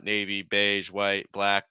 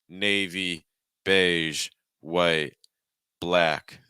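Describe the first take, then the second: First: Each word's pitch stays level and flat. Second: Each word's pitch steps down slightly. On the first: The speaker calls it wrong. "That's way too flat" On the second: The speaker calls it right. "each word is going down slightly"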